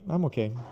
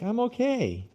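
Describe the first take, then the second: First: It is said with a flat, neutral intonation. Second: It is said with a bright, positive intonation. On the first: Things are just so-so. "it just means normal" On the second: Things are still good. "the intonation says, right, still bang"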